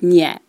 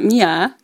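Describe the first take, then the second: First: The name does not sound like English Mia. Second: The name sounds like the English name Mia. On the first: The speaker calls it right. "It's Mie" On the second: The speaker calls it wrong. "It's not Mia"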